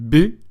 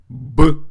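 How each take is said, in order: First: The consonant is pronounced soft, palatalized. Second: The consonant is pronounced hard, not palatalized. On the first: "pronounced softly, like this" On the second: "versus a hard pronunciation"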